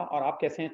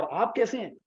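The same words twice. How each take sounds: First: Said in the usual way. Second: कैसे lifted higher, a warm eager greeting; warmly emphatic, pitch raised on कैसे; with warmth. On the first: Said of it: "यानी जब आपने ये कहा". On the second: Shown as a demonstration. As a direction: ask "आप कैसे हैं" like you really mean it. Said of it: "थोड़ा सा गर्म जोशी से बोल रहे हैं".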